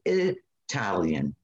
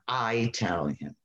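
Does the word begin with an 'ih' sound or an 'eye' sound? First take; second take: ih; eye. First: The word begins with a short 'ih' sound. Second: The word begins with a long 'eye' sound. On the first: The speaker calls it right. "it's called Italian" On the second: The speaker calls it wrong. "not Italian"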